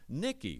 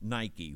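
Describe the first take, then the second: First: The name is said in a non-English way. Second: The name is said the common English way.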